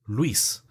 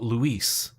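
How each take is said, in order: First: Luis in a Spanish accent, run into one syllable. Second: Luis drawn out the English way, loo-EES; anglicized Luis. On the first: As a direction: say Luis the native Spanish way, lwees. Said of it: "it's the Spanish accent". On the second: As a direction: say Luis in two English syllables. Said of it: "My name's not Luis". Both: Shown as a demonstration.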